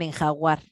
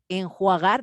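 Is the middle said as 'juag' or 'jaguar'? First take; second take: jaguar; juag. First: The middle is said jag, with a before u. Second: The middle is said juag, with u before a. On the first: The speaker calls it wrong. "dicen enjaguar" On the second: The speaker calls it right. "en vez de decir enjuagar"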